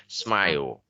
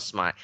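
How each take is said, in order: First: "Smile" ending in an "o"-like L, "smai-ol"; final dark L. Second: "smile" cut to "smai", no L at the end; final L dropped. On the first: Teacher correcting students' ending, dark L sounded. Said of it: "có âm L cuối này nó hơi có âm ồ". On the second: Teacher mimicking students' mistake, final L dropped. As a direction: say "smile" wrongly as "smai", leaving off the L. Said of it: "No, not smile". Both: Shown as a demonstration.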